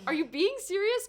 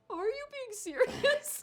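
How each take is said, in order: First: It is said without emotion. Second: It is said with emotion.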